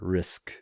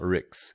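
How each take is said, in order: First: The syllable ends in an sk sound. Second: The syllable ends in a ks sound. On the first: The speaker calls it right. "It's risk" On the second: The speaker calls it wrong. "it's not Ricks"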